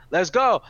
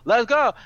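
First: Louder, higher call to fight; challenging shout. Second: Even higher and louder yell to fight; peak challenging yell. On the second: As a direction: push it to a full fight-starting yell. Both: Retold or imitated. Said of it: "the other person is like".

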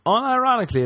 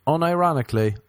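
First: Unironically pushed higher and louder, hitting the word unironically; emphatic repeat. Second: Said in the usual way. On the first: Shown as a demonstration. Insisting on a sex joke to listeners, unironically louder and higher.

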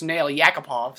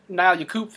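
First: Nail Yakupov as nail YAK-uh-pov; common anglicized pronunciation. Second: Nail Yakupov as nah-EEL ya-KOO-pov; proper Russian pronunciation. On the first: Host quoting how most say it, Nail Yakupov stressed on YAK. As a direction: hit YAK at the front of Yakupov. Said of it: "known by most of us as". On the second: Host contrasting the proper name, Nail Yakupov stressed on KOO. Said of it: "is known by most of us as". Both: Shown as a demonstration.

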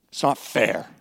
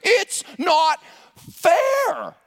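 First: Said in the usual way. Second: "It's not fair" very high and very slow, sulky; whining complaint. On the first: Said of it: "Remember what I said". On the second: Acted. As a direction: drag out "fair" like a sulking child. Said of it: "what is implied here".

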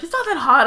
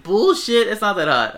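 First: High, loud mock protest; loud, high-pitched retold objection; protesting roommate. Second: Loud retort, starting high and easing down; exasperated retold rebuttal; indignant comeback. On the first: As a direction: whine back in a high imitation of her. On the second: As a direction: call her out, loud and raised in pitch. Retold argument, his comeback.

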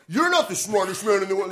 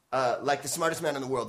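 First: Louder, higher mock heckler voice. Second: Said in the usual way. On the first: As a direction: jab it at him like a snide heckler. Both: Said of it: "there's people who go".

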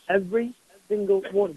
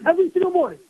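First: Said in the usual way. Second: "Every single morning" higher and louder, hitting "every"; emphatic. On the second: Shown as a demonstration. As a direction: belt the first take.

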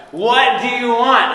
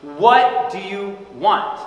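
First: Loud, high movie-scene yell; imitated full-force scream; screaming demand. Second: Loud, high, slow demand; emphatic word-by-word question; insistent demand. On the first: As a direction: shout it in exasperation. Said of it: "he screams at Rachel McAdams". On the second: Acted. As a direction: drive each word home slowly. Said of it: "Jesus has to do that".

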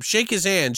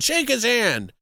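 First: Imitated instruction, pitched up; mock firm prompt to make up; insistent order. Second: Much higher-pitched imitated order; mock urging, pushed up high; escalated insistence. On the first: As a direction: tell them to do it, first time of asking. Retold kids told to make up. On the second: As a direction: press the order with comic urgency. Order repeated more insistently.

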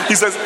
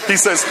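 No difference in how they are said.

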